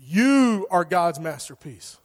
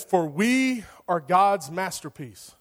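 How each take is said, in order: First: "You" punched and stretched, then slow; stress on "You". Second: Slow reading, "we" held long; stress on "we". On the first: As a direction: hit "You" hard and hold it, addressing the listener. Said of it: "You replace "we" with "you". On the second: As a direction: read it out slowly, leaning on "we". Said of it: "You replace "we". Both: Shown as a demonstration.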